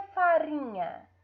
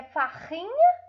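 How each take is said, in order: First: "farinha" with a tongue-tip R; lightly trembled R in "farinha"; weak R. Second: "farrinha" with a throaty H-like R; guttural R in "farrinha"; strong R. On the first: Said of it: "é fraco". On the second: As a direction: mispronounce farinha as "farrinha", R at the back. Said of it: "É forte ou é fraco?". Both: Shown as a demonstration.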